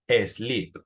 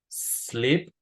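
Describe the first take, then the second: First: An extra E vowel comes before the S. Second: The word begins directly with the S sound. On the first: The speaker calls it wrong. "en español solemos agregarle una E. A veces decimos sleep" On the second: The speaker calls it right. "lo que tenemos que hacer es el sonido de S"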